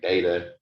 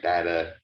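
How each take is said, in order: First: The first vowel is a long A sound. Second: The first vowel is a short A sound. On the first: "The long A" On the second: "the short A"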